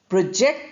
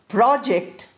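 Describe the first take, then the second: First: The stress is on the second syllable. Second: The stress is on the first syllable. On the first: It is used as a verb. "the verb form which we are using here is project. Project, second syllable stress" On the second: It is used as a noun. "first syllable stress"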